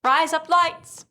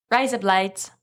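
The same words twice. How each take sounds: First: Higher, slow, badly faked Australian accent; exaggerated Australian accent. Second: Tentative, lightly put-on Australian accent; attempted Australian accent. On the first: Cohost proving they know specific phrases, worse Australian accent, higher and drawn out. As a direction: stretch out a clumsy Australian twang, pitched up. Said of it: "That was the same thing, but worse". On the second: Cohost showing the one phrase they know, tentative Australian accent. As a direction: try a modest Australian accent on a stock phrase. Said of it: "can't really do Australian. I can say".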